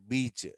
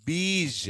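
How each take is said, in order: First: బీచ్ with a crisp ch, softer; wrong ch ending. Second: బీజ్ drawn out as "beezh", higher pitched; stretched model బీజ్ with zh, not ch; correct zh ending. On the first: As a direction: say బీచ్ as English "beach". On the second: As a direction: end బీజ్ on a long buzzing zh. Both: Shown as a demonstration. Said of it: "not బీచ్".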